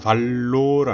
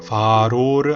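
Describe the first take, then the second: First: The middle consonant is a doubled L. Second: The middle consonant is a flapped R. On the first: "알로는 L 두 개 발음이고요" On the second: "아로는 모음 사이에 R 발음입니다. 둘 다 틀린 거예요"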